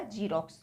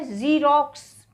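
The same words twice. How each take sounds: First: "ज़ीरॉक्स" mispronounced as jeerox; j instead of z. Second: "ज़ीरॉक्स" as zeerox, slow, buzzing z; buzzed z. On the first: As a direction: start "ज़ीरॉक्स" with a j. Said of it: "अभी हमने इसको बोल दिया". ("ज़ीरॉक्स" को ज से जीरॉक्स) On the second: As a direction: slowly model the z in "ज़ीरॉक्स". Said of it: "लेकिन ये क्या है". ("ज़ीरॉक्स" धीरे, ज़ की आवाज़ से) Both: Shown as a demonstration.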